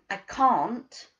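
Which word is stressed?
can't. The stress is on "can't".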